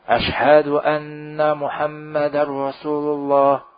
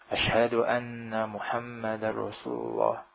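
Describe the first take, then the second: First: The phrase is said loudly, in a raised voice. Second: The phrase is said softly, in a low voice. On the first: "Kemudian dikeraskan"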